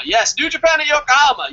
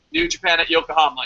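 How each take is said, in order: First: Higher, louder excited repeat; fired-up confirmation, pitched way up; emphatic excitement. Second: Said in the usual way. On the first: Real, not acted. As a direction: hype it up, voice jumping high.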